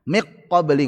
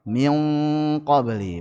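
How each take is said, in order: First: The n merges completely into the q. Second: The n is hidden in a light nasal sound. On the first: The speaker calls it wrong. "enggak cocok" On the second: The speaker calls it right. "paling ringan"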